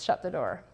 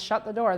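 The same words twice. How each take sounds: First: It is said in a sneaky, mischievous way. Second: It is screamed angrily.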